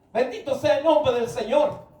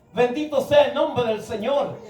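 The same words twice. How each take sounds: Both takes have the same delivery.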